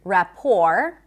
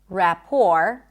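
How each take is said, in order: No difference in how they are said.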